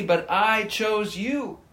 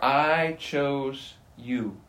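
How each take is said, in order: First: Said in the usual way. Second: I hit hard, whole phrase very slow; stress on I. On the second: Shown as a demonstration. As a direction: drag it out, weighting I. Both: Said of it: "Notice the emphasis there".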